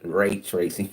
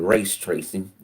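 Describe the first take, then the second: First: The first word has no s sound. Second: The first word ends with an s sound. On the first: The speaker calls it right. "It's ray tracing" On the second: The speaker calls it wrong. "I call it race tracing"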